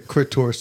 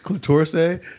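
First: The word is said with an R sound. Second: The word is said with an L sound. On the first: "he would say crit torse" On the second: "Instead of saying like clitorse"

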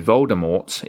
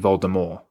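First: The final T is pronounced. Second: The final T is silent. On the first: The speaker calls it wrong. "every time you say Voldemort" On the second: The speaker calls it right. "it should be Voldemort"

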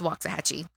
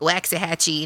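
First: The town name is said the local way. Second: The town name is said the non-local way. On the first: This is how locals say it. The speaker calls it right. "It's Waxahachie" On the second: This is how a newcomer says it. The speaker calls it wrong. "he was saying like Waxahachie. And I'm like, no"

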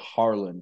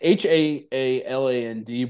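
First: The name is said with an R sound. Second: The name is said without an R sound. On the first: "he pronounces it Harland, like it with an R" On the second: "It's Haaland"

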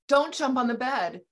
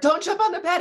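First: It is said at a normal volume. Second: It is said at a louder volume.

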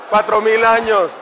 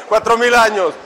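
The two takes are said the same way.

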